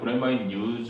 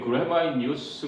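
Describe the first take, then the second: First: The word use ends with a z sound. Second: The word use ends with an s sound. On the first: The word is used as a verb. The speaker calls it wrong. "다들 그래마인 유즈 막 이러니까 어, 좀 이상하다고" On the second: The word is used as a noun. The speaker calls it right. "그래마인 유스 그래야 되는데"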